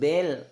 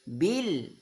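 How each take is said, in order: First: The vowel sounds like an e. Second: The vowel sounds like a clear i. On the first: The speaker calls it wrong. "bukan bel" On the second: The speaker calls it right. "Rabbil bil"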